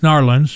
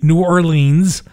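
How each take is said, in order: First: It is said the Southern way, squeezed together. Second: It is said the Northern way, fully pronounced.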